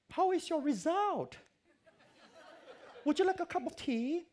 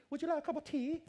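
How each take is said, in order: First: Put-on much higher, slow, sweet old lady voice; British lecturer. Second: High, loud mock English lady with a laugh; English tea offer. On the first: Elderly lecturer greets anxious student, high sweet English voice. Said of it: "英国人很喜欢讲这样啊". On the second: Teller mocks how the English always offer tea, high and laughing. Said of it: "每次他们开头句".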